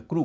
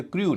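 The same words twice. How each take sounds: First: क्रू said as "kroo", no y-glide; correct oo sound. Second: क्रू said as "kryoo", with a y-glide; wrong-example क्रू, pronounced "kryoo"; mistaken y-glide. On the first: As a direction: go straight from r to oo in क्रू. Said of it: "क्रू कहते हैं". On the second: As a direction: put a y before the vowel in क्रू: "kri-yoo". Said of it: "इसे क्रू नहीं कहते". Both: Shown as a demonstration.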